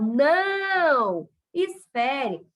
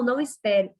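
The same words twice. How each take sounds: First: There is a pause after não. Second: There is no pause after não. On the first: Stop what you are doing and wait a little. "parar aquela ação e esperar um pouco" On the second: Act immediately and do not wait any longer. "é para ele agir, para ele não esperar mais nada"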